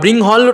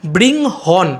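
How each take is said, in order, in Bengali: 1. শব্দটি L উচ্চারণে শেষ হয়। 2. শব্দটি N উচ্চারণে শেষ হয়।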